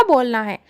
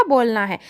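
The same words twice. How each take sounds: The two takes are said the same way.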